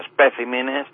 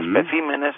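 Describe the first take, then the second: First: The stress stays on the singular's syllable. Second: The stress falls one syllable later than the singular. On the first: The speaker calls it wrong. "y no" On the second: The speaker calls it right. "cambian de sílaba cuando pasan al plural"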